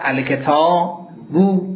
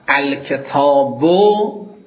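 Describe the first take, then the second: First: The final vowel is lengthened. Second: The final vowel is short. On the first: "از ضمه واو ایجاد بشود" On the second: "از ضمه واو ایجاد بشود"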